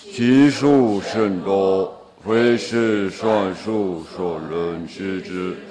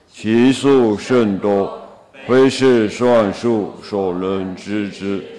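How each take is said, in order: No difference in how they are said.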